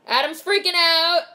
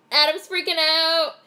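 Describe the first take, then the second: No difference in how they are said.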